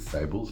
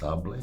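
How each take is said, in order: First: The word gets a spelling-based, non-French pronunciation. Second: The word gets a French pronunciation. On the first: The speaker calls it wrong. "Some people might read it and pronounce it" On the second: The speaker calls it right. "in French it's pronounced"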